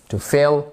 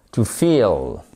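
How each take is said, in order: First: "feel" with a short i, like "fill". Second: "feel" with a long, drawn-out ee, lower. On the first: Teacher drilling the contrast for learners, short I in "feel". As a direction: keep the vowel of "feel" brief and lax. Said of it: "Voyez la différence?". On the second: Teacher drilling the contrast for learners, long I in "feel". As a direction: stretch the ee in "feel" and let it fall low. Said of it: "I long". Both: Shown as a demonstration.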